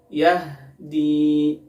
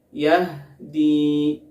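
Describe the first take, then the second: No difference in how they are said.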